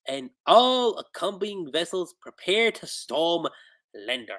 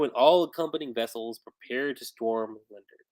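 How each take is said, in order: First: It is said in a put-on gruff pirate voice. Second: It is said in the speaker's ordinary speaking voice.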